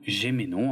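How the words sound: The name is said with a French pronunciation.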